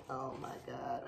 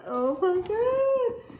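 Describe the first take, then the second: First: Low, very soft OH MY GOD; hushed awe. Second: High, drawn-out squeal of delight; thrilled, voice soaring up; excited squeal. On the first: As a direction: breathe it quietly in amazement. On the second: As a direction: stretch it slowly into a high squeal. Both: Real, not acted. Seeing the inside of the bag.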